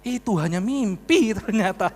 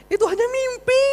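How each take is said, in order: First: MIMPI stretched long and falling; slow reveal, lingering on "mimpi" as it falls; drawn-out reveal. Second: Extremely high, loud squeal; high mock wail. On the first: Retold or imitated. Preacher revealing the pardon was a dream, drawn-out reveal. Punchline first told, then cried out. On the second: Preacher lamenting it was only a dream, high mock wail. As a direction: squeal the whole line way up at the top of the voice.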